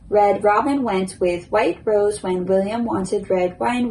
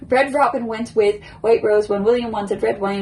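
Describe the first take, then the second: First: The sentence is said at a moderate pace. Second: The sentence is said very quickly. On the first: "a little bit quicker" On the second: "Now I'll try to do it quick"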